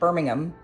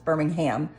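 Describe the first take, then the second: First: The name is said the British way. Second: The name is said the American way. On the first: This is how the English city is said. "You do not pronounce it Birmingham in the U S" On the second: This is how the Alabama city is said. "it's Birmingham"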